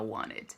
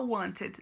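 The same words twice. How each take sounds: First: The middle T is dropped, American style. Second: The middle T is clearly pronounced, British style.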